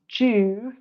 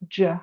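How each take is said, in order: First: It is reduced to 'ju' with an 'oo' vowel. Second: It is reduced to 'je' with an 'uh' vowel. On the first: It comes before a vowel sound. "pronounced ju like that if it were followed by a vowel sound" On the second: It comes before a consonant sound. "the you would be more of an uh, je"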